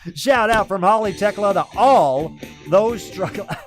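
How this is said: It is read loudly with lots of gusto. The speaker calls it wrong. "I was reading it with a little too much gusto"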